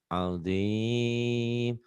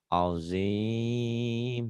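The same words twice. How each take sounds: The two takes are said the same way.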